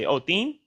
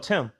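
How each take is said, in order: First: The name is said with a foreign accent. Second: The name is said with a native accent. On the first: The speaker calls it wrong. "The way a Chinese or a, a, a Spanish person try to say my name" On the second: The speaker calls it right. "no, Tim"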